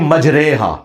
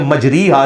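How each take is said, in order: First: The middle vowel is an e-like majhul sound. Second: The middle vowel is an i-like ma'ruf sound. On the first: The speaker calls it right. "ये पूरे कुरान में एक लफ्ज है" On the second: The speaker calls it wrong. "आपने मजरी हा नहीं पढ़ना"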